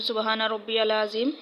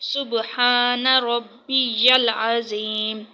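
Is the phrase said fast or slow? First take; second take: fast; slow. First: The phrase is rushed out quickly. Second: The phrase is said slowly and carefully. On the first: The speaker calls it wrong. "जल्दी जल्दी ये पढ़ते हैं" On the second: The speaker calls it right. "ठीक जो है वो ये है"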